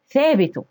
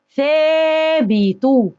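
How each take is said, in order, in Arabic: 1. الحركة الأولى قصيرة، غير ممدودة. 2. الحركة الأولى ممدودة بوضوح. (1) "ما ينفعش أقول ثابتوا، لا، أنا كده ما نطقتش المد" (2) "ازاي انطق المد؟ ... لازم امد"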